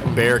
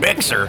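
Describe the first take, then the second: First: The name sounds like bear, with no x. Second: The name is said with the x sounded. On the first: This is how the locals say it. The speaker calls it right. "everybody calls it Bear County" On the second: This is how outsiders say it. The speaker calls it wrong. "the most Texified or whiteified pronunciation of that"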